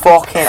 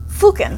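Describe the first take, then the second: First: Fucking with the u of foot, fook-in; Fucking said short and northern; Fucking, English fook-in; correct English fucking. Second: Fucking said the English way, short u like foot; Fucking with a northern fook sound; Fucking, fook-in, as a Brit would say it; British fucking. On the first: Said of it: "I don't know how to say fucking". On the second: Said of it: "the word that I've noticed you use the most". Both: Shown as a demonstration.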